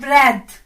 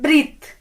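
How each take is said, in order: First: The vowel is short, like 'e'. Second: The vowel is long, like 'ee'. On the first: The speaker calls it right. "इसका सही pronunciation है" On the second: The speaker calls it wrong. "Mostly इसको लोग पढ़ते हैं ब्रीथ ... लेकिन ये गलत है"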